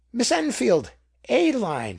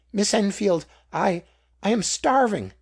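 First: High, loud cry of recognition; exclaimed. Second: High, loud, faltering plea for help; starving beggar's plea. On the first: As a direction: call out her name, desperate and loud. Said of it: "she exclaimed". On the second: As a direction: beg her, stammering with hunger. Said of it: "answered the beggar". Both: A narrator's reading.

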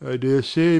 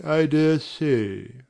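First: Said in the usual way. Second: Slow, musing with stress on dare; slow doubtful repeat. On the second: Acted. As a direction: draw it out, unconvinced.

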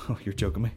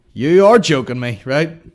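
First: Muted disbelief. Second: Loud, emphatic disbelief; loud exasperation. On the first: Podcaster to himself as the birthday clip stalls, muted disbelief. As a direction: say it softly, half to yourself. Reacting to slow internet, muted. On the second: Podcaster at his stalling internet, loud exasperation. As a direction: burst out, leaning hard on the words. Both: Real, not acted.

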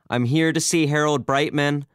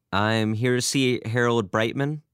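First: Louder, much higher, insistent; raised voice, pressing to be heard; more forceful. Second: Said in the usual way. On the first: A narrator's reading. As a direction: repeat it forcefully to someone ignoring you. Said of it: "Albert said with more force".

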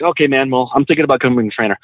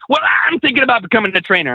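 First: Said in the usual way. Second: High-pitched mock imitation; mimicked eager guy. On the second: Repeats the quote, mimicking him.

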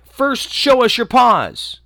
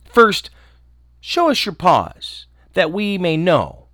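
First: High, loud, slow demand; kids crying out. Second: Put-on kids crying out. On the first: Acted. Wary kids at the door, high and loud. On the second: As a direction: insist on seeing the paws. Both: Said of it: "The little kids cried".

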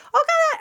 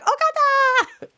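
First: High-pitched squealed Okada; fangirl squeal. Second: High, slow, stretched-out Okada; drawn-out fangirl squeal. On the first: Fan at Wrestle Kingdom squealing Okada's name, high and excited. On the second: Smitten fan at Wrestle Kingdom drawing out Okada's name, high and slow. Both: Retold or imitated. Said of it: "I was just like".

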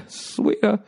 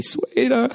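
First: Sung, sweeter dropping back down; lower sung retry. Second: Voice cracking. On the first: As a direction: sing sweeter again falling. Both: Pretend. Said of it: "I got puberty".

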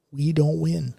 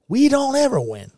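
First: Said in the usual way. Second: Raised protest. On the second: Real, not acted. Rants about losing.

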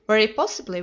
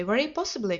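First: A forced cry, louder; anxious exclaim, pushed louder; cried out. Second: Said in the usual way. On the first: A narrator's reading. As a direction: cry it out with a ghastly smile. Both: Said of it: "cried Mister Pinner with a ghastly smile".

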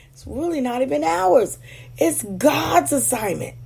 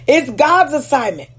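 First: Softer. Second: Said in the usual way. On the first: Real, not acted.

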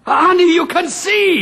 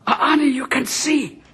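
First: High, joyful cry of astonishment; overjoyed amazement. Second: Higher-pitched, hushed-in-wonder disbelief; dawning amazement, not yet full voice; stunned realisation. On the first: Husband to his wife whose sight returned, overjoyed. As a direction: burst out with the miracle. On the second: Husband realises his blind wife can see, stunned. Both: Acted.

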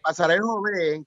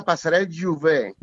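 First: Said in the usual way. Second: "Juvé" con u, como en catalán: Ju-VÉ; pronunciación catalana. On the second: Shown as a demonstration. ("Juvé" pronunciado en catalán con u y acento al final) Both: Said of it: "que sería Pasarel Juvé".

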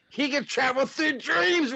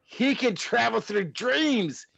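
First: Much higher, rising alarm. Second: Said in the usual way. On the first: Acted. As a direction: push the panic higher. Morty panics, rising.

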